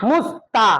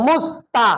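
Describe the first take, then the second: The two takes are said the same way.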